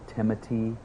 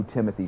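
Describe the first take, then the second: First: "Timothy" with a T sound for th; French-style pronunciation. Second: Said in the usual way. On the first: Real, not acted. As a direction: say "Timothy" as Timo-tee. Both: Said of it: "is it Timothy or Timothy?".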